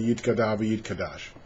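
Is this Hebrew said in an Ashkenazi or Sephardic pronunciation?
Sephardic. It is said in a Sephardic Hebrew pronunciation.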